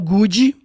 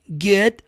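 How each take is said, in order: First: The final D is clearly released. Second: The final D is barely heard. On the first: The speaker calls it wrong. "não fala good" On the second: The speaker calls it right. "D de maneira sutil"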